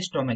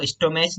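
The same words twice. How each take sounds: First: स्टमक with a final hard "k"; correct pronunciation. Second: स्टोमच with a final "ch" sound; wrong pronunciation. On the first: Teacher shows pupils how stomach is read, स्टमक with "k". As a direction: say स्टमक, the ending a "k" sound. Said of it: "इसको पढ़ते स्टमक". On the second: Teacher shows pupils how not to read stomach, स्टोमच with "ch". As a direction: say स्टोमच, ending as in "much". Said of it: "इसको स्टोमच नहीं पढ़ते". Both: Shown as a demonstration.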